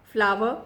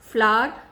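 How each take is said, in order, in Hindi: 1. इसका स्वर 'flower' वाले स्वर जैसा है। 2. इसका स्वर 'flower' वाले स्वर जैसा है।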